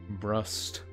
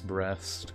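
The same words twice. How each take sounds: First: The second syllable has an 'oo' vowel. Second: The second syllable has an 'eh' vowel. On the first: The speaker calls it right. "put the emphasis on the U" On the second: The speaker calls it wrong. "so it doesn't come out as breast"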